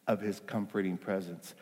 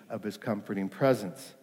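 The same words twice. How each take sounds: The two takes are said the same way.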